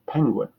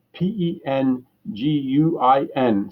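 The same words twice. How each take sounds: First: Said in the usual way. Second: Slow, letter by letter spelling. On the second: Acted. Caller spelling for a confused clerk, slow and deliberate. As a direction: spell each letter slowly down the line. Spelling slowly over the phone.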